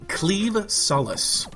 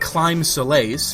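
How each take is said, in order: First: The first word sounds like cleave. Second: The first word sounds like climb. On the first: The speaker calls it right. "actually pronounced cleave" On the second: The speaker calls it wrong. "Not Climb Solace, which is what it looks like"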